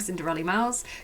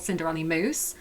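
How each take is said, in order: First: The last word rhymes with 'house'. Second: The last word rhymes with 'goose'. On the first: The speaker calls it right. "nobody ever knows how to pronounce, pronounce my name" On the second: The speaker calls it wrong. "I've been called Cinderella Moose"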